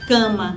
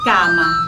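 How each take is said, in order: First: The first vowel is nasalized. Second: The first vowel is oral, not nasalized. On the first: The speaker calls it right. "nós dizemos cama" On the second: The speaker calls it wrong. "Ninguém diz cama"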